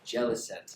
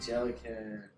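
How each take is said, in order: First: The name ends with a 'sent' sound. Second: The name ends with a 'can' sound. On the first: The speaker calls it right. "It's gotta be. Cent. Like ten cents" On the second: The speaker calls it wrong. "I just said it. What is wrong?"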